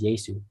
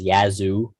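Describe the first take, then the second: First: It has an s sound, ending like 'su'. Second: It has a z sound, ending like 'zoo'. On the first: The speaker calls it right. "That's how you say it" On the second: The speaker calls it wrong. "Ian always says Yazoo"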